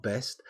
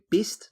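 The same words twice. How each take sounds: First: Said in the usual way. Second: "best" said as "bist", with a short i; Kiwi vowel in best. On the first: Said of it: "not best". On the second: Shown as a demonstration. Streamer showing the Kiwi way, "best" pronounced "bist". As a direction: give "best" the New Zealand vowel, like "bist". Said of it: "instead of for best, you go".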